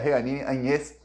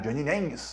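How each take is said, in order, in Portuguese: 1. O nome não é pronunciado do jeito americano. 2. O nome é pronunciado do jeito americano. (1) "o nome dela é" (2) "da maneira como os americanos ensinaram"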